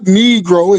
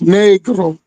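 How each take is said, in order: First: The word is pronounced the usual English way. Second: The word is pronounced the Spanish way. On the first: The speaker calls it wrong. "we're mispronouncing it" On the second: The speaker calls it right. "It's actually a Spanish word"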